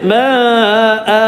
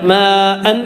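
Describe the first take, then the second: First: The word ends with a long open vowel. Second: The word ends with a short vowel and n. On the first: The reading stops at this word. "നിർത്തേണ്ടത് മാ ആ" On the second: The reading continues without a stop. "മാ അൻ എന്നുള്ള തൻവീൻ ഫത്ത്"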